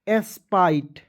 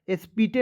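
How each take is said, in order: First: The vowel sounds like 'eye', with no final vowel. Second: The vowel sounds like 'ee', with a final 'e'. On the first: The speaker calls it right. "क्या हो जाएगा?" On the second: The speaker calls it wrong. "नहीं पढ़ना है"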